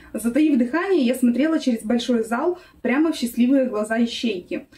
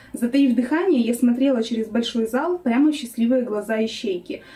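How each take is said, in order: Both takes have the same delivery.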